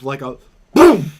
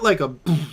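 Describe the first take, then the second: First: Boom is said loudly and forcefully. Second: Boom is said softly and mildly.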